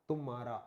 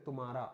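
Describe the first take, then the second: Both takes have the same delivery.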